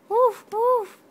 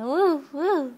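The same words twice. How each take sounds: First: Put-on high, loud playful woof woof for the baby; dog barking. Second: Just echo the woof gently; mild dog woof. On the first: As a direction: bark like a puppy, high and loud. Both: Shown as a demonstration. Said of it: "He goes".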